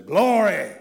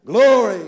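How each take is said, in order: First: Loud ringing shout of Glory; old-time preacher's cry. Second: Big loud, higher Glory; old-time preacher's cry. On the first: Recalling his boyhood preacher, a loud ringing Glory. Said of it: "that preacher used to always say". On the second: Preacher from his Appalachian childhood, shouting Glory. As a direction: belt it like a country preacher. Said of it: "he'd say". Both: Retold or imitated.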